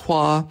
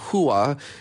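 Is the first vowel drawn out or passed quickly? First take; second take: quick; drawn out. First: The first vowel is quick, moving straight to the second. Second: The first vowel is drawn out before the second. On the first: The speaker calls it right. "you usually zip through the first vowel and head straight to the second vowel" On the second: The speaker calls it wrong. "instead of hua"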